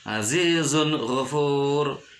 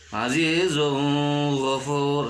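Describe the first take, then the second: First: The n sound is pronounced distinctly. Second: The n sound is blurred, not distinct. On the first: The speaker calls it right. "harus jelas azizun ghafur" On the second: The speaker calls it wrong. "tidak boleh dibaca azizun ghafur, salah"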